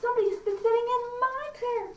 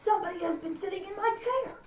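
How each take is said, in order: First: Very high, indignant bear voice; middle-sized bear. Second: High-pitched indignant bear, rising at the end; huge bear. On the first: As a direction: middle bear complaint, pitched right up. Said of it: "middle-sized bear also says". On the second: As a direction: complain as the huge bear, voice climbing. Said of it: "again the huge bear says". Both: Acted.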